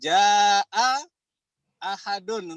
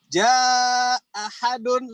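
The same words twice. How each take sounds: First: Both glottal stops are clearly pronounced. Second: The first glottal stop is dropped entirely. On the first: This is one traditional reading of the phrase. "untuk Imam Hafs" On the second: This is another traditional reading of the phrase. "hamzahnya di sini di iskot, dihilangkan"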